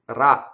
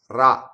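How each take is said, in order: Both takes have the same delivery.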